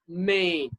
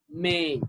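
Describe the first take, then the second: No difference in how they are said.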